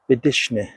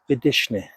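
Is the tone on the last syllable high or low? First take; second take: low; low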